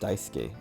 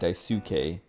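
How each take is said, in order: First: The second syllable carries no strong stress. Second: The second syllable carries strong stress. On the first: The speaker calls it right. "it's just Daisuke" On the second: The speaker calls it wrong. "stressing the second syllable uh is like like kind of common in American English"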